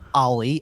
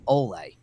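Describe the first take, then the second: First: The name sounds like Ollie. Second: The name sounds like Ole. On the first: "it is not Ollie" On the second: "it is not Ole"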